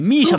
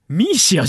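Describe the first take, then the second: First: A singer's name ends with a 'sha' sound. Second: The name ends with a 'si-a' sound. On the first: The speaker calls it right, saying they had always thought it was said that way. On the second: The speaker calls it wrong, spelling the name out letter by letter.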